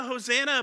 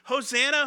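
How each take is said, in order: First: Lightly voiced repeated Hosanna; crowd cry repeated. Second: Higher, louder call of Hosanna rising at the end; a mild mock shout of Hosanna; crowd cry. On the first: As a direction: echo the first Hosanna as the crowd's answer. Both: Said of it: "we cried out".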